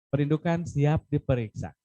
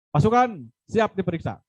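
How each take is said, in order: First: It sounds like a child speaking softly. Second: It sounds firm, bold and commanding.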